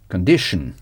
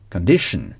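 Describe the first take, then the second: First: The ending sounds like unstressed 'shn'. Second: The ending sounds like unstressed 'shn'.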